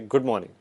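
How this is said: It is said in a disgusted tone. "If you are disgusted"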